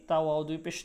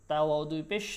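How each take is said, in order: No difference in how they are said.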